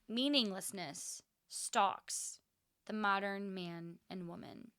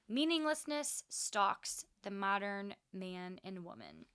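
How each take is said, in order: First: It is said more slowly. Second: It is said at a normal pace.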